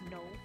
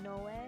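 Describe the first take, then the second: First: The name is one syllable, like 'no'. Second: The name has two syllables with Japanese vowels. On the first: "Or is it just No?" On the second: "like you would pronounce it in Japanese"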